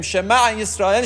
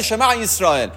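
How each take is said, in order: First: شمع اسرائیل with a rising, open end; first half of the forbidden doubled شمع اسرائیل; first take, rising. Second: شمع اسرائیل repeated with a falling, closed end; the wrong repeat of شمع اسرائیل, ending down; second take, falling. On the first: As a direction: say شمع اسرائیل as if more is coming. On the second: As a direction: finish the doubled شمع اسرائیل with a fall. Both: Shown as a demonstration. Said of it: "نمیتونیم بگیم".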